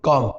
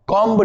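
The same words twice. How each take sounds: First: कॉम closing on the m; correct comb. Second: कॉम्ब with the b sounded; wrong reading of comb. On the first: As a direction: say कॉम without any b. (कॉम, B silent सही उच्चारण) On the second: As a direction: release a b after the m in कॉम्ब. (कॉम्ब, ब बोलकर गलत उच्चारण) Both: Shown as a demonstration. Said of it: "कॉम्ब नहीं".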